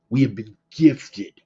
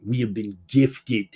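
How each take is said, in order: First: "We have been gifted" restated with more weight; emphatic repeat. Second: Said in the usual way. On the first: Shown as a demonstration. Host stressing to listeners that they have been given a chance, emphatic restatement. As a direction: lean into it the second time.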